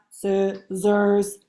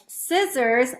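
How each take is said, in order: First: "scissors" split into two even, separate syllables; robot syllables. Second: Said in the usual way. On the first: Shown as a demonstration. Teacher showing young pupils robot talk, "scissors" in robotic syllables. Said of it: "then say it like a robot". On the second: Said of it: "first repeat the word scissors".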